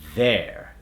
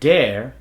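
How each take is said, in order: First: It begins with a voiced TH sound. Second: It begins with a D sound. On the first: The speaker calls it right. "the way we want to say it in an American accent" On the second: The speaker calls it wrong. "common words that use the D substitution"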